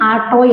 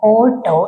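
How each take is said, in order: First: The first vowel is an open 'aa' sound. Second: The first vowel is a rounded 'o' sound. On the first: "ചിലര് അതിന് ആട്ടോ എന്നും പറയാറുണ്ട് കേട്ടോ തെറ്റൊന്നുമല്ല" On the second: "അതിന്റെ ശരിക്ക് പ്രൊണൗൺസിയേഷൻ വരുന്നത് എന്താണ് ഓട്ടോ എന്നാണ്"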